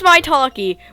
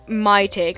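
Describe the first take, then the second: First: The name is said with four syllables. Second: The name is said with three syllables. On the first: "I know it's my talkie" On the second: "I pronounce it my take"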